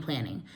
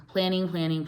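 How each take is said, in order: First: Last planning dropped low and soft; trailing off. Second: Said in the usual way. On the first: Shown as a demonstration. Teaching the first step, planning fades low and soft. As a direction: let the final planning fall away quietly. Repeating the key word, fading.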